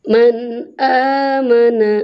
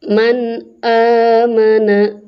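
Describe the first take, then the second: No difference in how they are said.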